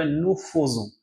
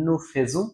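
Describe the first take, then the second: First: Nous faisons with fai said as an o-like "fe" sound, "nu fozon"; correct French pronunciation. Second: Nous faisons with fai said as "fe", "nu fezon"; common wrong pronunciation. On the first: Teacher to French learners, modelling nous faisons correctly. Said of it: "আমার উচ্চারণ করতে হবে nous faisons". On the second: Teacher to French learners, imitating the wrong nous faisons. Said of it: "অনেকে উচ্চারণ করে ফেলেন … সম্পূর্ণ ভুল". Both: Shown as a demonstration.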